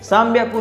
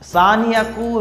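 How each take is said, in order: First: It is said merged as one word, sanbyaku. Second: It is said as two separate parts, san hyaku. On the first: The speaker calls it right. "उसकी जगह" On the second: The speaker calls it wrong. "यूज नहीं कर सकते"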